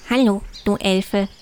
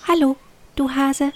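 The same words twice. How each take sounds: First: Leicht verstellte Hasenstimme, tiefer als die Elfe. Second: Viel höhere, kleine Elfenstimme. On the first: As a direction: ein Hauch vom freundlichen Hasen. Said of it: "antwortete er". (der Hase grüßt die Elfe zurück, kaum verstellt) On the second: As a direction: wie eine winzige Elfe auf der Nasenspitze. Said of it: "flatterte auf Hugos Nasenspitze und sagte". (die kleine Elfe begrüßt den Hasen mit hoher Stimme) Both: A narrator's reading.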